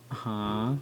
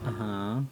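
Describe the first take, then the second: No difference in how they are said.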